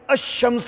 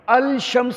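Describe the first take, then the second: First: The 'l' is silent and 'sh' is doubled. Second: The 'l' is pronounced before 'shams'. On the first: The speaker calls it right. "बल्कि शीन के ऊपर शादा आ जाएगी" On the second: The speaker calls it wrong. "लाम को नहीं बोला जाएगा, ऐसा नहीं बोलेगा"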